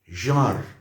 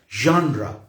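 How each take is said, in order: First: The word is said with French pronunciation. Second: The word is said with English pronunciation. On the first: "That is the French pronunciation" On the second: "the English pronunciation here, which is genre"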